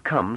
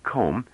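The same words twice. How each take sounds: First: Said in the usual way. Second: "comb", come with a long rounded o; rounded vowel. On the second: Shown as a demonstration. Narrator shows her Gaian way, "comb" with rounded o. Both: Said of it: "She made come sound like comb".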